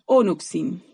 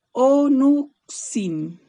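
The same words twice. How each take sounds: First: Said in the usual way. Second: "onuxin" stretched very slowly, syllable by syllable; slow teaching take of "onuxin"; drawn out. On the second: Shown as a demonstration. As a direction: spell out "onuxin" slowly for students. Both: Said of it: "Onuxin, ¿ya?".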